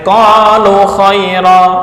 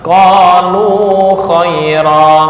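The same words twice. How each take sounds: First: The vowel of the first word is cut short. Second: The vowel of the first word is held long. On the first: The speaker calls it wrong. "Ini kalau dibuang menjadi pendek" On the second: The speaker calls it right. "di sini ada wawu, maka huruf sebelum wawu berharokat dhammah"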